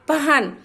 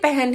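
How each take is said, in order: First: The word is said carefully, following its spelling. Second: The word is said in a casual, everyday way. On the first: "बच्चों को पहले पढ़ना ही आप ऐसे सिखाए, प ह न" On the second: "हम बोलते पहन है"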